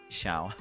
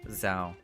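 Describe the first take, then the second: First: The name begins with an sh sound. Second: The name begins with a z-like sound. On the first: The speaker calls it wrong. "and not Shao. But but Shao works too" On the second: The speaker calls it right. "it is with a Z. So it is Zhao"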